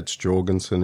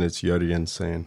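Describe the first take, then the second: First: The name is said the Australian way. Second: The name is said the Swedish way.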